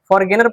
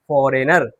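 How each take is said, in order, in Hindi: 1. बीच में 'g' बोला जाता है। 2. बीच में 'g' साइलेंट है। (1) "फॉरगेनर पढ़ते हैं क्या? नहीं" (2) "हम पढ़ते हैं फॉरेनर"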